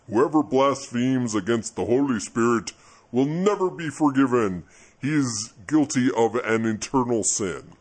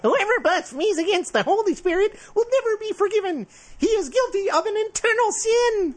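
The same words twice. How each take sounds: First: It is said in a slower God voice. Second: It is said faster in a whiny voice.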